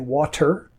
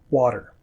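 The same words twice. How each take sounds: First: The middle consonant is a clear T. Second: The middle consonant sounds like a quick D. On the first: This is how some other parts of the world say it. "it might be a clearer T" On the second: This is how most of North America says it. "but not in most of North America"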